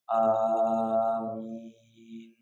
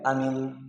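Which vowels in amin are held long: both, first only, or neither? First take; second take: both; neither. First: Both vowels are held long. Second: Both vowels are said short. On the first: It asks God to grant the prayer. "kalau benar" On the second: It means safe. "kalau pendek"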